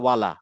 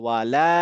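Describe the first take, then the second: First: The final 'la' vowel is cut short. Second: The final 'la' vowel is drawn out long. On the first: The negation is lost. The speaker calls it wrong. "আলিফটা না টানি" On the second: It means 'and not'. The speaker calls it right. "আলিফ থাকার কারণে এই লাটা টান হবে"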